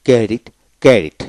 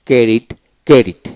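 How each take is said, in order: Both takes have the same delivery.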